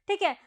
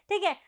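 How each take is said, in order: Both takes have the same delivery.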